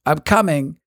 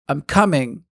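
The two takes are said the same way.

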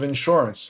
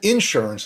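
First: The word is said in a plain accent. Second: The word is said in a put-on accent. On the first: "instead of insurance" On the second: "I used the little, I don't know what kind of accent that is"

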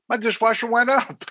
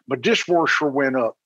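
First: It is said in the speaker's plain accent. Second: It is said in an old Baltimore accent.

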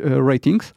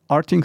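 First: The name starts with a 'ra' sound. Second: The name starts with an 'ar' sound. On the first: This is how the company wants it pronounced now. "tak jak oni by chcieli, żeby to wymawiać" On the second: This is the older pronunciation the company once used. "mimo że kiedyś wymawiali to Artings"

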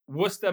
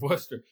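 First: It is said in a local Massachusetts accent. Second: It is said in a general accent.

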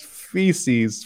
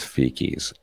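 First: The middle consonant is an s sound. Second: The middle consonant is a k sound. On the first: This is how the speaker says the word. The speaker calls it right. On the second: This is how a friend says the word. The speaker calls it wrong.

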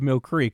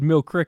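First: Mill Creek is said the general, non-local way. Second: Mill Creek is said the local Utah way. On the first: The speaker is not from Utah. "instead of Mill Creek" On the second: The speaker is from Utah. "You know how you can tell you're from Utah, too? It's because you said Mill Creek"

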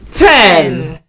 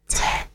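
First: It is said in a normal voice. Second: It is said in a quiet whisper.

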